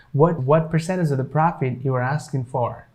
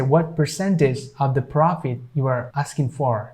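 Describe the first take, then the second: First: "percentage" said as "per-SEN-ij"; silent T, easier. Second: "percentage" with its T sounded; careful "per-SEN-tij" for "percentage"; full T, longer. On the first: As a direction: drop the T in "percentage". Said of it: "makes it easier". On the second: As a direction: pronounce the T clearly in "percentage". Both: Shown as a demonstration.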